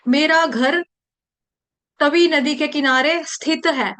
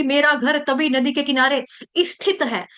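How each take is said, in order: First: स्थित starting straight on "s"; careful "sthit" for स्थित; correct initial cluster. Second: स्थित said as "isthit"; wrong-way demo, "i" in front of स्थित; added vowel. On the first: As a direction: model sentence with no vowel before स्थित. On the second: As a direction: put an extra इ before स्थित. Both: Shown as a demonstration. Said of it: "ई नहीं लगाएंगे अपनी".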